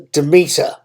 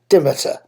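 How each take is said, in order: First: The stress is on the second syllable. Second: The stress is on the first syllable. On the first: "with the stress on the second syllable" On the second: "with the stress somewhat on the first syllable"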